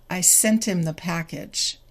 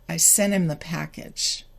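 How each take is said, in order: Both takes have the same delivery.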